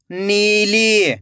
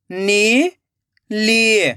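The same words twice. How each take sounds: First: नीली joined as one slow word; blended word. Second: नीली split into नी, long pause, ली; rising नी, then falling ली; syllable by syllable. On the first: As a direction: read नीली whole, falling at the end. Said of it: "खींच के पढ़ना है". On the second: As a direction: sound out नीली very slowly in two parts. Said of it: "एक एक अक्षर का उच्चारण करना है". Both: Shown as a demonstration.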